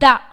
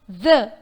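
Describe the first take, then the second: First: It begins with a hard d sound. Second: It begins with a soft th sound. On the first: The speaker calls it wrong. "It's not da" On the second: The speaker calls it right. "Th is pronounced as th. The tip of the tongue should touch the front teeth"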